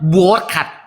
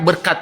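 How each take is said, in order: First: The first vowel sounds like 'o'. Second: The first vowel sounds like 'e'. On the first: The speaker calls it wrong. "bukan borkat" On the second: The speaker calls it right. "B E R K A T dibacanya berkat"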